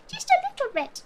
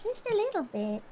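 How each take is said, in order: First: "Just a little bit" lifted high and playful; high sing-song. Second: Said in the usual way. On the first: Acted. Echoing her own words to chat in a high sing-song. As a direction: toss the line up high, teasing. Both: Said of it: "repeated line".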